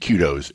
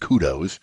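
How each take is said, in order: First: It is said with a British pronunciation. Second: It is said with an American pronunciation.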